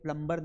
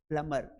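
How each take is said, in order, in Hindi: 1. m के बाद b की आवाज़ सुनाई देती है। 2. m के बाद कोई b की आवाज़ सुनाई नहीं देती। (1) "इसे प्लम्बर नहीं पढ़ना है" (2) "बी है ना वो साइलेंट है"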